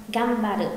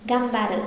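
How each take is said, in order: The two takes are said the same way.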